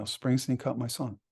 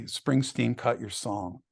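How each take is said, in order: First: Said in the usual way. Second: Deadpan email read. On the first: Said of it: "I get an email". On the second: Retold or imitated. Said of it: "so Mark writes to me".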